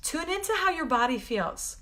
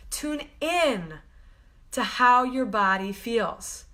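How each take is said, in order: First: Said in the usual way. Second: "Tune in" set apart, then "to how your body feels" slowly; slow repeat. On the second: Shown as a demonstration. Healer guiding viewers, slow emphatic repeat. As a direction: split it and slow it down.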